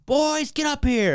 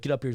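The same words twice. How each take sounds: First: High, drawn-out mock call; mom calling out. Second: Said in the usual way. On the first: Mom summoning boys from the basement, calling out. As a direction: imitate a mom calling kids upstairs.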